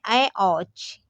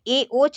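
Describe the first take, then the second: First: The vowels are diphthongs ai and au. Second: The vowels are pure e and o. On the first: The speaker calls it right. "ये है ऐ औच" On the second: The speaker calls it wrong. "ये ए ओच नहीं है"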